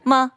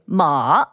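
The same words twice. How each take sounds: First: The syllable is short and light, without full tone. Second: The pitch dips low and then rises. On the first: It marks a question. "which means a question mark" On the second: It means horse. "that means horse"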